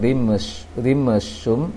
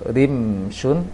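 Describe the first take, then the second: First: The mim sound bounces with an echo. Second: The mim sound is held without bouncing. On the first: The speaker calls it wrong. "jangan rimshum" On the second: The speaker calls it right. "ditahan mimnya"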